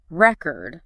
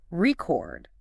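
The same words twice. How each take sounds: First: "record" stressed on the first syllable, RECK-erd; "record" as a noun, strong start and weak ending. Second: "record" stressed on the second syllable, ri-CORD; "record" as a verb, light start and strong ending. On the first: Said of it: "the noun". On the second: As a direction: punch the second syllable of "record", drawn out slowly. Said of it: "the verb". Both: Shown as a demonstration.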